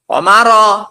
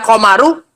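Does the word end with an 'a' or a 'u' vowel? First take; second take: a; u. First: The word ends with an 'a' vowel. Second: The word ends with a 'u' vowel. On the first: The moon is simply there alongside us. The speaker calls it right. "Makanya dibaca apa? Komaro. Karena wawnya waw apa? Waw ma'iyah" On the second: The moon is also walking along. The speaker calls it wrong. "Ini kalau kita baca komaru, berarti bulannya ikut apa? Ikut jalan, nggak mungkin"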